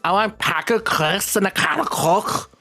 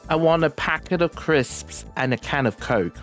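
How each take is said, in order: First: It is said in a Scouse accent. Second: It is said in a standard British accent. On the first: "In Scouse English is" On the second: "usually in British English we say"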